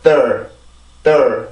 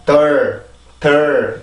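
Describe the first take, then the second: First: '덜' with a small springing stress; '덜' launched with a little preparatory bounce; syllable with jump. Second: '덜' said alone, just as it is; '덜' as a bare syllable, no preparatory jump; syllable without jump. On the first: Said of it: "이렇게 하면서 점프를 이렇게 올라가셔야 됩니다". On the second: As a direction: say '덜' without any springing lift. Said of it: "이게 아니라". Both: Shown as a demonstration.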